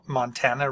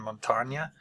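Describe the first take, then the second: First: It is pronounced with English vowels and consonants. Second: It is pronounced with Spanish vowels and consonants. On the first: This is the adapted local form of the name. "anglicized it, made it into a Mo- Montana" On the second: This is the original form the name came from. "rather than Montana"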